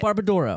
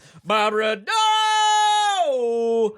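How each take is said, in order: First: It is said hesitantly and quietly. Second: It is said loudly, like an announcer.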